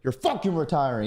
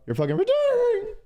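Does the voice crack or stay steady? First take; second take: steady; crack. First: The voice stays steady and firm. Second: The voice cracks and trembles.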